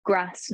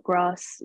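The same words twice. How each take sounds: First: "grass" with a short Nottingham A; slow, subtle Nottingham vowel on "grass"; Nottingham accent. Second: "grass" with the long southern AH vowel; non-Nottingham pronunciation. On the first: Actress shows what the voice coach drew out, subtle Nottingham accent. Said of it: "just getting that accent, that very subtle". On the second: Actress shows the vowel to avoid for the role, "grass" with long AH. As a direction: say "grass" as "grahss", slowly. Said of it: "grass, not grass". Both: Shown as a demonstration.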